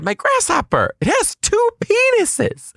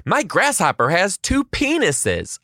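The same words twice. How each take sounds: First: Put-on very high, squeaky child proclamation; imitated child insisting at extreme high pitch; kid repeating himself. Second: Put-on high, slow child announcement; imitated child, boldly announcing to a silent class; confident kid. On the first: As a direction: repeat it in piercing falsetto, stretching the end. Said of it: "to ask him a second time". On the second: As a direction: proclaim it proudly as a small kid. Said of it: "with full-blown confidence".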